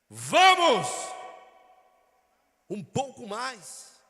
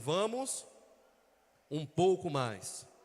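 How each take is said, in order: First: Vamos is exclaimed loudly and energetically. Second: Vamos is said calmly, without exclamation.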